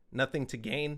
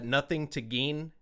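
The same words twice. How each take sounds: First: Said in the usual way. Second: "Gain" said with a long ee, like "geen". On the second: Real, not acted. Naming a favorite [name] song, "Gain" pronounced "geen". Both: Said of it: "about Ed Gein".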